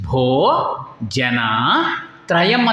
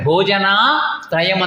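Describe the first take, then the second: First: Bho is split off from jana as a separate word. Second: Bhojana is said as one unbroken word. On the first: It is a call: O people, three. The speaker calls it right. "ಬೇರೆ ಬೇರೆ ಪದ ಮಾಡಿದ್ದಾರೆ" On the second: It means three meals. The speaker calls it wrong. "ಅಂತ ಮಾಡಿಲ್ಲ"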